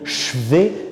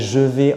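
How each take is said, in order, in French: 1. Le 'je' se dévoise en son 'ch'. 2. Le 'je' se prononce en entier avec sa voyelle. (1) "est impossible" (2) "on peut transformer je vais"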